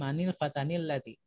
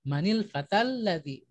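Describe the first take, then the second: First: An extra n-sound is added after fata. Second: Fata runs straight into ladzi without an n. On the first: The speaker calls it wrong. "bukan manil fatanil ladzi" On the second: The speaker calls it right. "bacanya disambung langsung"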